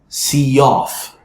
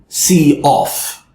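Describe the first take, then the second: First: A y sound links the two words together. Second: The two words are said separately, not linked. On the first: The speaker calls it right. "I added a yeh sound" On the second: The speaker calls it wrong. "we don't want to say see off"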